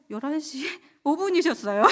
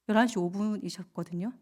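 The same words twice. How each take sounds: First: Higher, louder, breaking into laughter; laughing. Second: Said in the usual way. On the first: Real, not acted. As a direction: giggle through the punchline. Repeats the eyebrow joke laughing.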